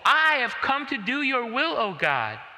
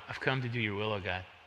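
First: It is said willingly, without any grudging tone. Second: It is said reluctantly, in a grudging, resigned tone. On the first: The speaker wants to do it. The speaker calls it right. "does that sound grudging? ... It doesn't sound to me" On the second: The speaker does it unwillingly, under duress. The speaker calls it wrong. "Yeah, oh well"

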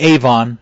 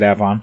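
First: It uses the widespread general pronunciation. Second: It uses the regional local pronunciation. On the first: This is how most people say it. "which most people would say Avon" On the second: This is how locals say it. "but out here they pronounce it Avon"

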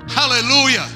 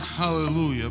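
First: It is said eagerly, with expectancy. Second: It is said flatly, without expectancy. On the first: The speaker calls it right. "Say it with faith and expectation" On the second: The speaker calls it wrong. "Not hallelujah"

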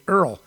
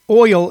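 First: The word is said with an 'er' vowel. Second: The word is said with an 'oy' vowel. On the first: The speaker calls it right. "I say it correctly. I say Earl" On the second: The speaker calls it wrong. "Oil is how some people mispronounce that word"

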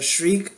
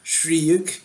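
First: The name is pronounced in an English way. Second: The name is pronounced in a Japanese way. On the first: "I looked it up on Wikipedia. They show, like, the little pronunciation thing" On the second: "There's also the Japanese way"

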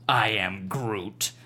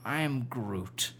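First: The voice sounds angry and harsh. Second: The voice sounds let down and deflated. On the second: "A little bit disappointed"

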